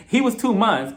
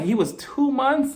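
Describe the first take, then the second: First: Said in the usual way. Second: Slow, high-pitched disbelief; "two months" drawn out in disbelief; incredulous. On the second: Retold or imitated. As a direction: stretch out TWO MONTHS high, as if it's absurd. Repeats the fact in disbelief.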